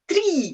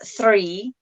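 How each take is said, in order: First: It starts with a t sound. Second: It starts with a th sound. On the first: This is how Irish speakers say it. "they say three" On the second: This is the standard way to say it. "instead of uh, three"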